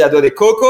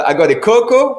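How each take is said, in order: First: Agua de coco, stress shifted to the final co of coco; mistaken coco stress. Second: Agua de coco, stress on the first CO of coco; coconut-water pronunciation. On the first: Showing a friend the rude slip, coco stressed at the end. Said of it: "t'as une eau de, de, de caca". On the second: Showing a friend how to order coconut water, coco stressed early. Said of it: "t'as une vraie, euh, noix de coco". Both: Shown as a demonstration.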